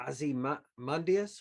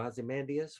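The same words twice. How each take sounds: First: Ozymandias with "mun" as the third syllable; Ozymandias, rounded "uh" in the stressed syllable; first pronunciation variant. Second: Ozymandias with "man" as the third syllable; Ozymandias, open "a" as in "man"; second pronunciation variant. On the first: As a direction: say Ozymandias as "ozzy-MUN-dee-us". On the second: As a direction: say Ozymandias as "ozzy-MAN-dee-us". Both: Shown as a demonstration. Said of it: "however you wanna say it".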